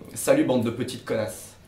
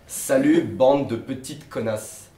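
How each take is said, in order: First: It is said at a fast pace. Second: It is said at a slower pace.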